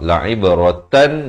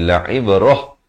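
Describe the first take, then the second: First: The word ends with a nasal tan sound. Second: The word ends with a breathy h sound. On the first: The reading continues into the next words. "kalau nak sambung" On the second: The reading stops at this word. "bila waqaf, ta marbutah ini ditukarkan kepada bunyi ha"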